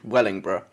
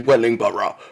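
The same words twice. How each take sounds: First: It is said in a local regional pronunciation. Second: It is said in a posh RP-style pronunciation. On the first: The speaker calls it right. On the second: The speaker calls it wrong.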